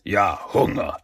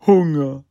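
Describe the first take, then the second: First: Grudging villain's growl, mildly done; understated, grumbling growl. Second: High, loud henchman butting in; goofy, hungry blurt; eager interruption. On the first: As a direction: echo it back in weary irritation. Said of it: "knurrte der Shredder". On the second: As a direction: burst in eagerly, pitched up. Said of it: "fiel ihm Biob ins Wort". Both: A narrator's reading.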